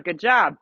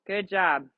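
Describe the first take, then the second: First: "Good job" called out louder; loud praise. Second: Said in the usual way. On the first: Real, not acted. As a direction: call the praise across the arena.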